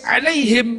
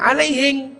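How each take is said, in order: First: The word ends with an m sound. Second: The word ends with an ng sound, Bugis-style.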